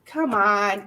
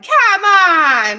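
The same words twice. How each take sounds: First: Said in the usual way. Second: Much louder, high-pitched "come on!"; real, full-voiced cheer; excited shout. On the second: Real, not acted. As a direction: holler it out in disbelief at the gift. Overjoyed reaction to a donation.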